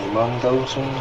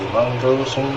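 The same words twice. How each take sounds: The two takes are said the same way.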